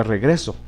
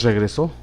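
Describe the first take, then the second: First: "regreso" stressed on GRE; stress on middle syllable. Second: "regresó" stressed on the final SÓ; stress on last syllable. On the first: Teacher showing the word without written accent, stress on GRE in "regreso". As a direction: put the weight on GRE in "regreso", final syllable unstressed. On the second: Teacher naming the intended word, stress on SÓ in "regresó". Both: Shown as a demonstration. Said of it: "si no lo acentuáramos".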